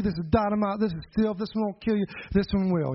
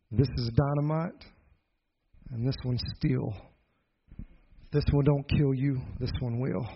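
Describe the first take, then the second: First: Summoned courage. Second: Low, measured menace with long pauses; uncle's threat. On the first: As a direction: run the borrowed warning together without pauses. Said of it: "finally I got enough courage". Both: Retold or imitated.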